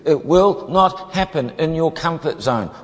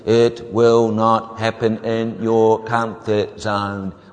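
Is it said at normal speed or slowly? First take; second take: normal speed; slowly. First: It is said at normal speed. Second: It is said slowly and deliberately.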